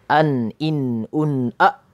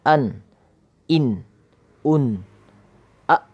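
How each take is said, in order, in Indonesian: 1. Suku katanya disambung dalam satu nafas. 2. Setiap suku kata diucapkan terpisah dengan jeda. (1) "ketika yang kedua" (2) "Sama juga nanti berikutnya"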